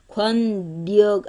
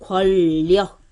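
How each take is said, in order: First: The consonant at the join is an n sound. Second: The consonant at the join is an l sound. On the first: The speaker calls it wrong. "아니죠" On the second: The speaker calls it right. "리을로 바꿔요"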